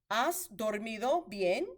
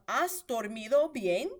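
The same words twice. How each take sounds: Both takes have the same delivery.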